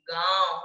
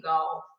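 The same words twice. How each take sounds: First: गांव with a drawn-out nasal गां; stress on गा, nasalised. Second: गांव said short and lower as गाव, no nasal; without nasal. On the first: Teacher showing गांव with chandrabindu, stressed and nasalised. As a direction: lean on गा through nose and mouth in गांव. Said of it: "गा पर जोर देते हुए बोलूंगी". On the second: Teacher showing गांव with chandrabindu removed, without nasal. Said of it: "चंद्र बिंदु हटा देती हूँ". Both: Shown as a demonstration.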